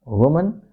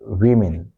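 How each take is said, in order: First: "woman" as WUU-mun, rising like a list item; lifted ending on "woman", reduced second vowel; singular form. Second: "women" as WIM-in, falling; short I in "women", closed with a fall; plural form. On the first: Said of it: "This is woman". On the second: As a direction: say "women" with short I sounds, tune dropping. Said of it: "and this is women". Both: Shown as a demonstration.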